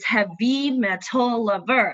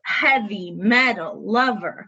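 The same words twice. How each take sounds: First: Each word is stressed on its second syllable. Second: Each word is stressed on its first syllable. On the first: This is how the singer says it in the song. The speaker calls it wrong. "the way she pronounces it in the song with the musicality" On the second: This is the normal American English pronunciation. The speaker calls it right. "the emphasis is on the first, syllable"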